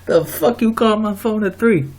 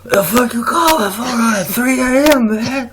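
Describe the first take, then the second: First: It is said in his own normal voice. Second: It is said in an imitation of Doc's voice.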